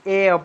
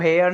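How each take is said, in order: First: The word begins with a vowel sound. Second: The word begins with an h sound. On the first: The speaker calls it right. "एयर पढ़ते हैं" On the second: The speaker calls it wrong. "इसको हेयर नहीं"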